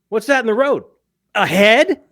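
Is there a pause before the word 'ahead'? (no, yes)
yes. It breaks with a pause before 'ahead'. "means a completely different thing"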